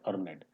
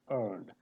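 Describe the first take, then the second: First: The ending is said as an extra syllable. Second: The ending is a plain final d sound. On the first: The speaker calls it wrong. "It's not earned" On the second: The speaker calls it right. "E becomes silent and only D is pronounced"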